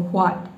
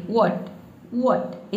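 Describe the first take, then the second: First: व्हाट said as "haat", a breathy h at the start; wrong pronunciation. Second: व्हाट said as "wot", a plain v sound with no h; correct pronunciation. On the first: Teacher demonstrates the wrong व्हाट, starting it with a breathy h. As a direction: show the students' mistake: व्हाट with an h sound. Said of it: "ये गलत हो जाएगा आपका pronunciation". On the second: Teacher models the correct व्हाट for students, "wot" with a plain v. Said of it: "तो यहाँ पे हम क्या पढ़ेंगे". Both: Shown as a demonstration.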